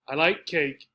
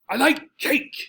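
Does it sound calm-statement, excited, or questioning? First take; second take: calm-statement; excited. First: It is said calmly with a falling statement tune. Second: It is said in a lively, excited tone. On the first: The speaker is simply telling a fact. "Just a sentence. I'm not asking. There's no real degree of excitement" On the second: The speaker is thrilled about the fact. "Here I'm excited. I'm telling you in a very excited tone"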